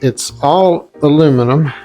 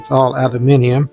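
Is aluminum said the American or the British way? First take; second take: American; British. First: Aluminum is said the American way. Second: Aluminium is said the British way.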